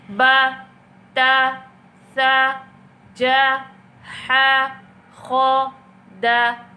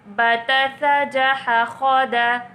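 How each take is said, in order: First: Each syllable is said separately with pauses. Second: The syllables are run together without pauses.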